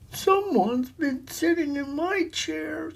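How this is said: It is said in a little voice.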